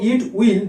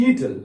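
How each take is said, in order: First: "it will" as two distinct words; two separate words. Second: "it'll" run together; one-word contraction. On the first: Teacher showing the long form, "it will" pronounced as two words. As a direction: sound both "it" and "will" fully. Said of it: "দুবার উচ্চারণ". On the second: Teacher showing the short form, "it'll" pronounced as one word. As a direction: merge it and will into "it'll". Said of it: "দুবার উচ্চারণ না করে বলবো". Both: Shown as a demonstration.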